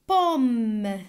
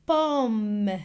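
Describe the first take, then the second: The two takes are said the same way.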